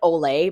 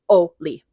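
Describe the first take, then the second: First: It is said like the Spanish word olé. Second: It is said the Scandinavian way. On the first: This is how it looks from the spelling. The speaker calls it wrong. "it looks like Ole" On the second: This is how the name is really pronounced. The speaker calls it right. "but it's Oli"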